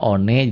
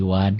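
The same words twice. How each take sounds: First: "one" said letter by letter as "o-ne"; read as spelt. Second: "one" pronounced "wan"; English reading. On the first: Teacher comparing spelling with reading, "one" as written. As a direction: say "one" in two syllables, "o-neh". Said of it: "Kayak one dibacanya jadi one". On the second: Teacher showing how foreign words are read, "one" as "wan". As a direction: say "one" as one syllable starting with w. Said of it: "dibacanya jadi one". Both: Shown as a demonstration.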